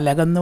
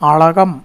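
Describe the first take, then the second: First: The middle L sound is plain. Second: The middle L sound is retroflex. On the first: The speaker calls it wrong. "അലകെന്ന് വായിക്കരുത്" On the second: The speaker calls it right. "അളകം എന്ന് വായിക്കണം"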